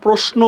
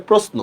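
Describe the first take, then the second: First: প্রশ্ন with palatal sh before n; wrong form with sh. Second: প্রশ্ন with hissed s before n; correct form with s. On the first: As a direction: say প্রশ্ন as "proshno", with a hushing sh. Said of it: "এটা ভুল". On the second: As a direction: say প্রশ্ন as "prosno", with a dental s. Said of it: "আসলে প্রশ্ন". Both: Shown as a demonstration.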